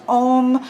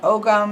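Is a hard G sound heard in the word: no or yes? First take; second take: no; yes. First: The word is said with no G sound. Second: The word is said with a hard G sound. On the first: "you will also see pronunciations such as Om" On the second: "they put that hard G in there"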